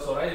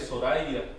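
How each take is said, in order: First: "Soraya" with a consonant Y, so-RA-ya; modern Y pronunciation. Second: "Soraya" with the Y as ee, so-ra-EE-a. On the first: Teacher giving the form to replace, modern Y pronunciation. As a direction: say "Soraya" the everyday way. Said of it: "Instead of Soraya". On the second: Teacher correcting the region's name, old E sound for Y. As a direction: open "Soraya" out with a separate EE vowel. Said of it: "the Y was pronounced E". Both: Shown as a demonstration.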